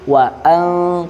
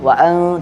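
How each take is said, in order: First: The glottal stop before 'an' is clear. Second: The glottal stop before 'an' is slurred. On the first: The speaker calls it right. "tapi wa an, karena apa tadi? Hamzah jelas" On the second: The speaker calls it wrong. "bukan wa an wa an"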